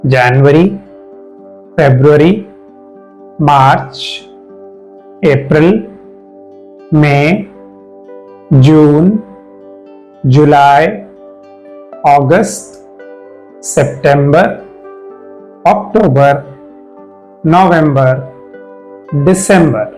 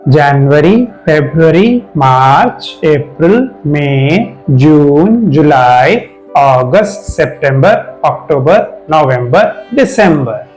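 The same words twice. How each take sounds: First: The months are said slowly. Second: The months are said faster.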